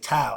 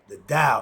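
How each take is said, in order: First: The word begins with a T sound. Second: The word begins with a D sound. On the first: The speaker calls it wrong. "A lot of people say Tao" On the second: The speaker calls it right. "It's supposed to be the D sound"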